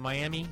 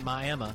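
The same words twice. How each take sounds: First: It is said the usual Florida way. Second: It is said the local Oklahoma way. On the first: It names the city in Florida. "which is a Miami, Florida" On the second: It names the town in Oklahoma. "people in Oklahoma pronounce it Miami"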